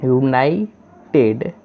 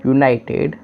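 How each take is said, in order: First: यूनाइटेड drawn out slowly syllable by syllable, यू-नाइ-टेड; यूनाइटेड stretched out slowly for a class; slow sounded-out word. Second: Said in the usual way. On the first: Shown as a demonstration. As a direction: sound out यूनाइटेड slowly so learners hear each part. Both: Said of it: "और डी को ड".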